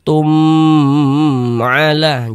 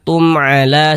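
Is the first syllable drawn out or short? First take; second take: drawn out; short. First: The first syllable is held and drawn out. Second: The first syllable is read short and crisp. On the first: The speaker calls it wrong. "Jangan dibaca tum'ala, jangan dipanjangkan begitu, jangan" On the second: The speaker calls it right. "Pendek saja. Tum'ala, tum'ala seperti itu"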